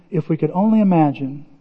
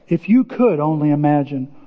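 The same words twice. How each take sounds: First: Said in the usual way. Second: "you" lifted above the rest; stress on YOU. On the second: Real, not acted. Pastor turning the wish on each listener, stress on "you". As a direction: lean on "you", then let the rest settle low.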